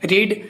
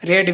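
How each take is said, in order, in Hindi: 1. स्वर लंबी 'ee' ध्वनि है। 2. स्वर छोटी 'e' ध्वनि है। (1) "રીડ બોલી વી વનમાં" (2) "વી ટુમાં રેડ બોલી"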